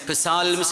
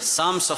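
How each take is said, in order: First: The word begins with a p sound. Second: The word begins with an s sound. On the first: The speaker calls it wrong. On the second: The speaker calls it right.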